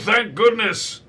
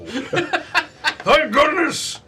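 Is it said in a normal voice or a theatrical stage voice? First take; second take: normal; stage voice. First: It is said in an ordinary speaking voice. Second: It is said in a theatrical stage voice.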